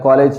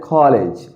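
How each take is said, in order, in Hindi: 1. दोनों सिलेबल पर बराबर स्ट्रेस है। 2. सिर्फ एक सिलेबल पर स्ट्रेस है। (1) "आप उर्दू में कहते हैं ना" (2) "इंग्लिश में कहते हैं"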